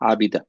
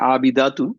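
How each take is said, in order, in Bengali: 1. শব্দটি ছোট '-a' ধ্বনি দিয়ে শেষ হয়। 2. শব্দটি পূর্ণ '-atun' দিয়ে শেষ হয়। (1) "আমরা যদি ওয়াকফ করতেছি তখন হচ্ছে আবিদা" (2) "এটার ফিমেল ভার্সন যেটা, সেটা হচ্ছে আবিদাতুন"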